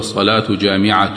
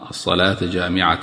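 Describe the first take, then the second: First: The words end with 'u' vowels, nominative case. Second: The words end with 'a' vowels, accusative case. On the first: The prayer is a gathering one, as a plain statement. "ممكن نقول الصلاة جامعة بالرفع" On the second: It urges people to come to the prayer, gathered together. "تكون هذه منصوبة على الإغراء"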